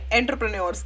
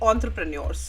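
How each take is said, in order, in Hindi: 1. यह 'en' से शुरू होता है और ध्वनियाँ लिखे अनुसार हैं। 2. यह 'on' से शुरू होता है और फ़्रेंच जैसी ध्वनि है। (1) "हम इसको थोड़ा सिंप्लीफाई करके एंटरप्रेन्योरशिप कहते हैं या एंटरप्रेन्योर्स कहते हैं" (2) "this is the correct way how we से इट"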